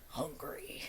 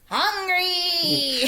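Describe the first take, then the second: First: It is said in a deep, guttural voice. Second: It is said in a high-pitched voice.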